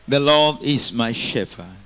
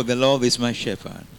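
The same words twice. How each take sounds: First: Louder, slow and weighty; loud slow declaration. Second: Said in the usual way. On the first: Shown as a demonstration. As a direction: declare it slowly and loudly. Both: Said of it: "Say, neighbor".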